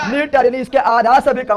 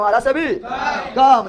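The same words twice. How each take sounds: First: Said in the usual way. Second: आधा से भी कम drawn out at half speed; slow repeat. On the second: Shown as a demonstration. Teacher repeating for the class, very slow. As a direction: stretch each word of आधा से भी कम so it can be written down. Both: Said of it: "धीरे धीरे बोल को सुनने ले".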